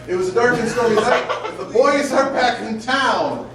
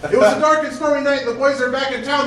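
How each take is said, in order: First: The sentences are read with pauses between them. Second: The sentences are read without any pauses between them.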